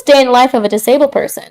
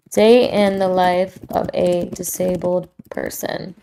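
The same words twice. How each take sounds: First: Said in the usual way. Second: Slow, softer title read; title announcement. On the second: Shown as a demonstration. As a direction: announce the title slowly and softly, savoring each word. Repeats it as a podcast title.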